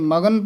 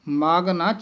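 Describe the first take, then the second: First: The syllables are run together as one word. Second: The syllables are kept apart as two words. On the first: The speaker calls it wrong. "ਇਹ ਮਗਨ ਪਾਠ ਨਹੀਂ ਕਰਨਾ ਹੈ" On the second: The speaker calls it right. "ਵੱਖਰਾ ਪਾਠ ਹੈ। ਮਾਗ ਪੋਲਾ ਹੀ ਬੋਲਣਾ ਹੈ"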